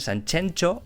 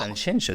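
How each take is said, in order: First: The x sounds like a hard ch. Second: The x sounds like a soft sh. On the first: The speaker calls it wrong. "dicen Sanchencho" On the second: The speaker calls it right. "no saben decir Sanxenxo"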